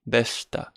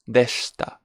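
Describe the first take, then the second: First: The vowel after sh is dropped. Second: The vowel after sh is dropped.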